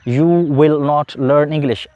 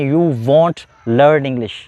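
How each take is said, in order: First: 'Will not' is said as two full words. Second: 'Will not' is contracted into one short word.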